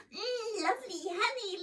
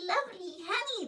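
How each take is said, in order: First: Put-on high, cooing baby voice savouring honey; delighted baby coo. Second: Put-on high baby coo, quickened; hurried delighted baby coo; faster baby voice. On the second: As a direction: repeat it quicker, greedier. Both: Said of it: "the sticky baby was crying out".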